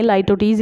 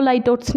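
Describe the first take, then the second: First: "litotes" said as "lie-TOE-teez"; three syllables in "litotes", ending in "eez"; correct litotes pronunciation. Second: "litotes" said as "LIE-tots"; "litotes" as LIE-tots, no final "eez"; mispronounced litotes. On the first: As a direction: say "litotes" with long i and final -teez. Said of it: "litotes इसको पढ़ा जाता है". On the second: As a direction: say "litotes" in two syllables, ending in -ts. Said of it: "इसको litotes नहीं पढ़ेंगे". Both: Shown as a demonstration.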